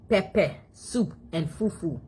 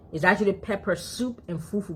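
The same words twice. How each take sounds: First: Slow, "Pepper" as pep-peh with no r; "Pepper soup and fufu" slowly, pep-peh with no r; African pronunciation. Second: "pepper" with a clear r at the end; "pepper" the American way, r sounded. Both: Shown as a demonstration. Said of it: "African don't say pepper".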